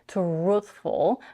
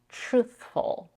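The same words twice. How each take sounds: First: The word starts with a clear t sound. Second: The word starts with a ch-like sound. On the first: "she doesn't say truthful" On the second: "The sound more like a ch in the word choice"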